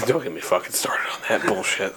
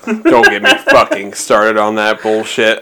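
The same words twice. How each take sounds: First: Hissed whisper; low angry whisper. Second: Said in the usual way. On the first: Shown as a demonstration. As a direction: whisper it through clenched anger. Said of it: "repeated plainly". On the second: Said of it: "repeated after whisper".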